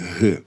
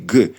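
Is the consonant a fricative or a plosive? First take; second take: fricative; plosive. First: The consonant is a fricative. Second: The consonant is a plosive stop. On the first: "перейшов у фрикативний «г»" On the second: "лише як проривний «г»"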